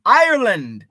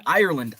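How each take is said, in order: First: Loud, high, hammed-up Irish accent; terrible Irish accent. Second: Said in the usual way. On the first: Shown as a demonstration. Host echoing a viewer's Irish-born dad, loud bad Irish accent. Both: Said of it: "That's my terrible Irish accent".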